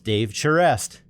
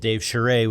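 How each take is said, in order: First: The name is said with a Bostonian accent. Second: The name is said with a French Canadian accent.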